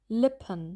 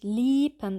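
First: The i vowel is short and lax. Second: The i vowel is fully long and tense. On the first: The speaker calls it right. "Es ist so eine Mischung zwischen dem langen I und dem Schwa-Laut" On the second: The speaker calls it wrong. "Das kurze I wird auch teilweise ein bisschen zu lang ausgesprochen"

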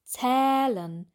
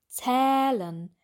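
First: The vowel is open, with the jaw wide. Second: The same.

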